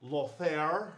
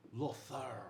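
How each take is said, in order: First: Said in the usual way. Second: "Lothair" with a Spanish-style lisped th; lisped name. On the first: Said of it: "He has a lisp". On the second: Acted. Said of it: "He has a lisp, 'cause he is from Spain".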